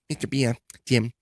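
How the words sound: It is said in a put-on imitated voice.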